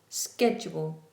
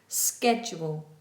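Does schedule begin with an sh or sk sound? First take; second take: sk; sk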